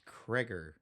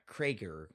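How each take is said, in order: First: The vowel in the name is not a hard A. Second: The vowel in the name is a hard A. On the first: The speaker calls it right. "it's not a hard A" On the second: The speaker calls it wrong. "It's not Krager"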